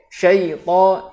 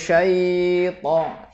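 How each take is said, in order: First: The first syllable's vowel is kept short. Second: The first syllable's vowel is drawn out long. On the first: The speaker calls it right. "Jadi syaito" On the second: The speaker calls it wrong. "tidak boleh syaito, ... dipanjangkan, tidak boleh"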